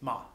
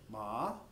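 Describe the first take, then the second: First: The pitch falls sharply in a short syllable. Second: The pitch rises through the syllable. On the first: "very short and abrupt and a falling tone" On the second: "a rising tone, almost like a question"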